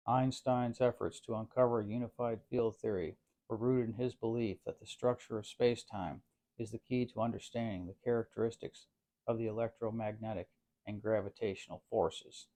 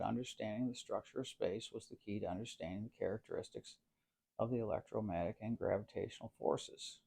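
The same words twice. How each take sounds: First: Lightly put-on authoritative textbook reader. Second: Said in the usual way. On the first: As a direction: read it out with mock textbook authority. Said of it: "in my authoritative textbook accent". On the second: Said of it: "I will now quote in my".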